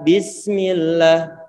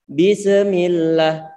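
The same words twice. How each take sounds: First: The s sound flows smoothly without a bounce. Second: The s sound is cut off with a bounce. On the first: The speaker calls it right. "untuk huruf sin kita alirkan suaranya" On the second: The speaker calls it wrong. "Kita nggak boleh mengatakan bismillah, bismillah. Ini bacaan yang salah"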